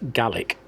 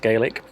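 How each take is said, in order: First: The word is said the Scottish way. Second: The word is said the Irish way. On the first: It names the Scottish language. "Correct pronunciation for Scottish language is Gaelic" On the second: It names the Irish language. "Irish is Irish Gaelic is pronounced Gaelic"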